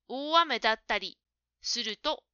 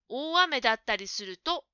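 First: There is a break before the final 'suruto'. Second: The whole phrase is said as one unit. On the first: The final part sounds like a separate conjunction. The speaker calls it wrong. "するとだけ分けて言うと、接続詞のように聞こえますから気をつけた方がいいでしょう。" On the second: The phrase is one conditional clause. The speaker calls it right. "とまとめていった方が"

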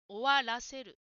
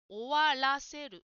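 No difference in how they are said.

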